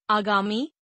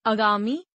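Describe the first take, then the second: First: Said in the usual way. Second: आगामी starting on short uh, "agaami"; mispronounced. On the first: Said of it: "शुद्ध". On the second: Shown as a demonstration. Teacher showing a vowel error, mispronounced with short first a. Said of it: "अशुद्ध".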